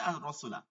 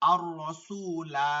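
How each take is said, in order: First: The final vowel is kept short. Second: The final vowel is drawn out long. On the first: The reader joins it to the next verse. "আপনি মিলাই পড়লে" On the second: The reader stops at the end of the verse. "থামলে তখন আপনি মাত পড়ে যাবেন"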